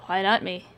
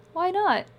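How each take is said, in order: First: Put-on dry, tired West Down accent, stress on "not"; a flat West Down "Why NOT me"; dry West Down man. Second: High woman's voice, "not" falling; Ely's voice. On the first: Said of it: "his West Down accent was as strong". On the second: Acted. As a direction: ask "Why not?" high and gentle. Ely asks, high voice.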